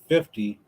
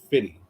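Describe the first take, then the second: First: The middle f sound is fully pronounced. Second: The middle f sound is dropped. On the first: "instead of saying fifty" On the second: "they say fitty"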